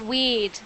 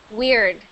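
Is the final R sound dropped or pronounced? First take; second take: dropped; pronounced. First: The final R sound is dropped. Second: The final R sound is clearly pronounced. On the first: "I can just hear the British accent on you" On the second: "for Canadian and American pronunciation"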